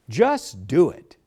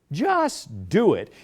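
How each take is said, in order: First: Slow, deliberate Just do it; preacher spells out the slogan, slow and deliberate; slogan read slowly. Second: Just do it, said very slow and falling; slogan, slower. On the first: Preacher to congregation, slow deliberate slogan. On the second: Preacher repeats the slogan, slower and falling. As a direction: lets the slogan land slowly. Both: Shown as a demonstration. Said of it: "Here's a spur line".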